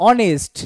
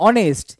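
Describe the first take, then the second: No difference in how they are said.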